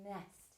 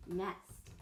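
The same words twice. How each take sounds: First: "Nest" with a very long, soft nnn first; "Nest" sounded out slowly and quietly; slowed down. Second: Said in the usual way. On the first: Shown as a demonstration. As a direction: hold the n of "Nest" before finishing it. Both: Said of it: "I'm gonna slow it down".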